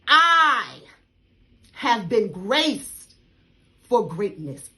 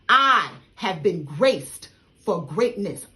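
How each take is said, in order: First: It is said forcefully, with strong conviction. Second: It is said plainly, without extra force.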